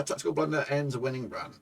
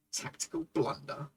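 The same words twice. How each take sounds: First: Said in the usual way. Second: Bitter whispered aside, much softer; hushed, rueful whisper. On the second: Real, not acted. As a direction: breathe it out like a private grumble. Repeats headline under his breath.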